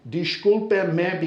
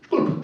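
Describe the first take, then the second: First: Every syllable of the phrase is said in full. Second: It is said fast, cut to one short syllable. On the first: "the word for I'm sorry or excuse me is disculpe" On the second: "they say it fast. Disculpe me becomes sculp"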